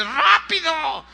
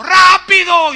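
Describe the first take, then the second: First: High, drawn-out acted strain; straining, grunted plea. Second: High, very loud full-out yell; desperate shout. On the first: Man biting rope to his rescuer, straining grunted plea. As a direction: urge them on as if mouth is clamped on a rope. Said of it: "se oían puros pujidos ... así como diciéndole". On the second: Retold or imitated. Desperate man a metre from the top, desperate shout. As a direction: scream it out desperately, mouth wide open. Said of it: "gritó y dijo".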